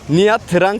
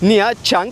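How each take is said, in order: First: The second word begins with a 'tr' sound. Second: The second word begins with a 'ch' sound. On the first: The speaker calls it wrong. "Google'a yazdığınız zaman Nha Trang diye çıkacak" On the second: The speaker calls it right. "T ve R harfleri yan yana gelince Ça diye okuyoruz"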